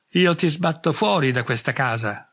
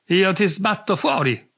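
First: A mild growled threat, barely above normal level; muttered warning with a snarl in it. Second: Louder, higher yell, falling hard on fuori; shouting after him down the corridor; half-hammed drunken yell, pushed up in pitch; shouting threat. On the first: Acted. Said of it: "ringhiò".

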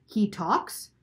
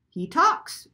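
First: Mildly startled question, rising at the end; shrill astonishment. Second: High, loud mimicking bird; shrieked imitation. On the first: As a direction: ask it in startled disbelief. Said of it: "her voice shrill and high". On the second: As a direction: shriek it back like a mocking parrot. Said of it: "shrieked Lena, imitating Missus Croft's voice". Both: A narrator's reading.

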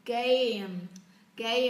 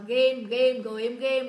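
First: "Game" as a drawn "gay-eem"; full diphthong. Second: "game" as a short Vietnamese "ghêm"; Vietnamese-style vowel. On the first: Teacher modelling English for learners, full-diphthong "Game". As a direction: finish the "ei" glide in "Game" before closing on m. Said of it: "đọc xong các âm đôi các bạn mới đọc cái phụ âm". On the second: Teacher imitating learners' habit, Vietnamese-style "game". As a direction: say "game" with one pure vowel, no glide. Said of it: "Đấy là tiếng Việt đúng không". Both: Shown as a demonstration.

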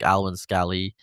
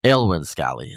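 First: "Alwyn" opening with an Al sound; first pronunciation try. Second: "Aylwyn" opening with an El or Ale sound; alternative pronunciation try. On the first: Host unsure of author's name, trying "Alwyn" as Al-win. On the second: Host unsure of author's name, retrying "Aylwyn" as El-win. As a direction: say "Aylwyn" as El-win, lower in pitch. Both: Shown as a demonstration. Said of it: "don't know how to pronounce".

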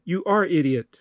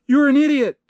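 First: Said in the usual way. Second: High, loud, punchy "You're an idiot"; emphatic misreading. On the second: Acted. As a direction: read the insult out high and emphatic. First reading, corrected right after.

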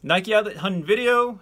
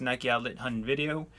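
First: Much higher and louder retake; high, punched-up sign-off phrase; emphatic final retake. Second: Said really fast; hurried, slightly garbled sign-off phrase; rushed. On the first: Shown as a demonstration. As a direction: belt the phrase out high and loud. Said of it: "can't even say that that fast". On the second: Real, not acted. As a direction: run the words together and stumble slightly. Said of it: "I try to say that really fast".

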